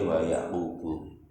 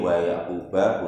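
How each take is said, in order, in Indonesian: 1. Nama itu berakhir dengan vokal 'u'. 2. Nama itu berakhir dengan vokal 'a'. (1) "Kalau dibaca rofa wa Yaqubu" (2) "Boleh wa Yaqubah"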